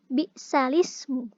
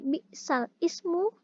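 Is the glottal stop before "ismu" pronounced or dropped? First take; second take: dropped; pronounced. First: The glottal stop is dropped and the sounds link. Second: A glottal stop is pronounced before "ismu". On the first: This is the naql reading. "dibaca secara naql menjadi" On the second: This is the original reading. "Bacaan yang awalnya"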